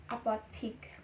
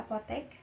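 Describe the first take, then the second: First: Apothik said as the foreign word apothik; foreign spelling form. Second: Apotek said the Indonesian way, ending in -tek; Indonesian form. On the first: Teacher contrasts the loanword apothik with apotek. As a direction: say apothik the Dutch way before it is adapted. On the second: Teacher gives the adapted form apotek after apothik. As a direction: give apotek its plain Indonesian sound. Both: Shown as a demonstration. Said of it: "menjadi apotek".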